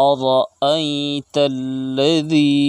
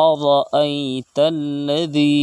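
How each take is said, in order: Both takes have the same delivery.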